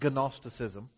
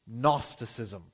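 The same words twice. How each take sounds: First: The word begins with a hard g sound. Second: The word begins with an n sound. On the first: The speaker calls it wrong. "It's not gnosticism" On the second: The speaker calls it right. "You don't say the G"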